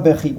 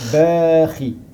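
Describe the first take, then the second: First: The vowel after the b is short. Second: The vowel after the b is lengthened. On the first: The speaker calls it wrong. "on ne dit pas bahi" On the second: The speaker calls it right. "Ça, c'est prolongation. ... on dit bahi"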